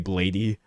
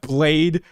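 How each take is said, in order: First: The name ends with an extra 'ee' vowel. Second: The name ends without an extra vowel. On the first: The speaker calls it wrong. "a lot of people do say Blady" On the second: The speaker calls it right. "but Blade"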